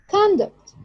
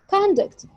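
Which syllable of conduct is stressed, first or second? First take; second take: first; first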